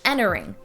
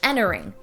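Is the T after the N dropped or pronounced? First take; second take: dropped; dropped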